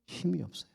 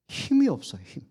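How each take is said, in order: First: Soft, dropped almost to a murmur; quiet admission. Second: Pitched much higher, cried out; emphatic repeat. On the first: Preacher to congregation, hushed and soft. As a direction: let the words sink, hushed. Preacher stresses Peter's weakness. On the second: Preacher hammering his point to congregation, high and urgent. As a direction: lift the line high to drive it home. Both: Acted.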